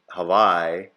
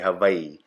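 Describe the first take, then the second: First: The vowel after the w sounds like eye. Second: The vowel after the w sounds like ee. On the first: The speaker calls it wrong. "you don't say Hawaii" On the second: The speaker calls it right. "The letter I is pronounced E"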